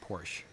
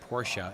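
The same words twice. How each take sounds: First: Porsche is said the common, non-purist way. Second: Porsche is said the purist's preferred way. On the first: The speaker calls it wrong. "and not Porsche" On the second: The speaker calls it right. "try to say Porsche ... for the purist"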